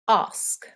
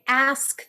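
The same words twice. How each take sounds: First: The word has a British RP vowel. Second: The word has an American vowel. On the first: "British R P would be, ... they would say ask" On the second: "we say ask"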